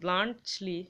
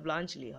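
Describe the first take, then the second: First: A clear t sound comes before the l. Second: A ch-like sound comes before the l. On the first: The speaker calls it wrong. "ব্লান্ট টর উচ্চারণটা হয় না" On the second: The speaker calls it right. "ব্লাঞ্চলি হয়"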